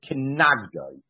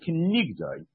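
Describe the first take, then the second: First: The middle vowel sounds like 'ah'. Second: The middle vowel sounds like 'eh'. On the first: She will give him lashes. "we could read it Kenagdoi" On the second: She stands opposite him. "but we read it with a segel"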